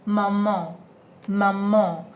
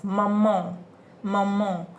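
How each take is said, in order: First: "maman" with a nasal final vowel, no n closure; nasal French maman. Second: "maman" with a nasal final vowel; nasal French maman. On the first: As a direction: say "maman" through the nose at the end. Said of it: "which gives you the nasal sound". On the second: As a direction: end "maman" in the nose. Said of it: "the nasal sound". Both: Shown as a demonstration.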